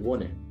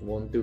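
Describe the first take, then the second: First: It is said as one short blended word. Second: It is said as two full separate words.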